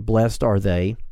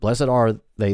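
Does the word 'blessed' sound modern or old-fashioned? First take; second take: modern; old-fashioned. First: Blessed is said with its everyday modern pronunciation. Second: Blessed is said with its older, formal pronunciation. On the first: "then you're fine to do that" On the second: "This is just the older pronunciation that I choose to use"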